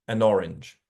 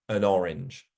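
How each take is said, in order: First: The n sound links into the next word. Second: The n sound links into the next word.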